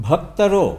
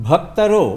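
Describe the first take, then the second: The two takes are said the same way.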